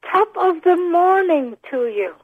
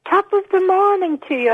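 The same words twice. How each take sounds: First: Slower, clearer "Top of the morning to you". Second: Irish lilt on "Top of the morning to you"; Irish greeting on request. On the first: Host asks caller to repeat it clearly, slow and clear. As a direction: spell it out nice and clear. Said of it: "Nice and clear for me". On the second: Caller asked by host to say the greeting, Irish accent. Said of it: "Say top of the morning to you". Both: Shown as a demonstration.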